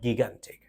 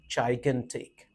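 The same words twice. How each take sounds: First: The word is said the way it is spelled. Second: The word is said in its standard pronunciation. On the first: The speaker calls it wrong. "you say it according to the spelling" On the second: The speaker calls it right. "The real pronunciation of the word is gigantic"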